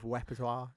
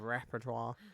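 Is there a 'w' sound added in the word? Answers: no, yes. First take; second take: yes; no. First: An extra w sound is slipped into the word. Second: The word is said without an extra w sound. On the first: The speaker calls it wrong. "I throw W's. I just did with repertoire" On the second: The speaker calls it right. "instead of repertoire"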